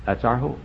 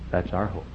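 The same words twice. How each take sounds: First: Said in the usual way. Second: Much softer, lower repeat of That's our hope; softer echo. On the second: Acted. Preacher echoing his point to the congregation, hushed. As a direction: let it fall away to a hush.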